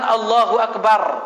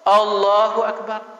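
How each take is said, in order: First: The whole phrase is loud, including the end. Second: Only Allah is loud; the last syllable is faint.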